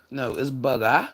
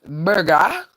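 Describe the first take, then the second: First: Said in the usual way. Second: "Burger" jumped high and punched; burger, pitched up and louder. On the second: Shown as a demonstration. Trying the voice for viewers, a high loud "Burger". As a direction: bark out "Burger" high and strong. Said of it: "I can't do it".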